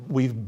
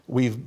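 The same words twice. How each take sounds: The two takes are said the same way.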